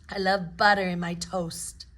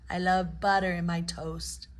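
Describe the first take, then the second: No difference in how they are said.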